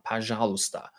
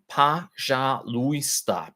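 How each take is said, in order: First: "пожалуйста" vloeiend op normaal tempo, als pa-zha-lu-sta, de ui ingeslikt; natural-speed pronunciation. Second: "пожалуйста" langzaam, lettergreep voor lettergreep, met een zwakke O: pa-zha-lu-i-sta; slow careful pronunciation. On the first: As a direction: zeg "пожалуйста" gewoon snel: pazhalusta. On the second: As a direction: spreek "пожалуйста" heel traag uit, met zwakke O als pa. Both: Shown as a demonstration. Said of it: "weak O".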